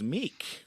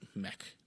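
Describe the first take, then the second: First: The vowel is a long 'ee' sound. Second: The vowel is a short 'eh' sound. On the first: The speaker calls it wrong. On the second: The speaker calls it right.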